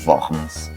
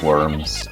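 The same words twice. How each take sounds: First: It is pronounced the German way. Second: It is pronounced the English way.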